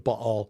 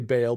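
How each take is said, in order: First: The name is said the original, non-American way. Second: The name is said the common American way. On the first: The speaker calls it right. "but it's, you know, Baal" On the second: The speaker calls it wrong. "most of us Americans say Baal"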